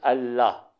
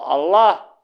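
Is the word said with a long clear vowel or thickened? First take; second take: long vowel; thickened. First: The vowel is long and clear, with elif. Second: The sound is thickened and heavier. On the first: The speaker calls it right. "elif'in çıktığı telaffuz daha iyidir tabii" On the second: The speaker calls it wrong. "biraz kalınlaştırıyor"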